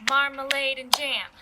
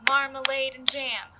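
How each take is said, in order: Both takes have the same delivery.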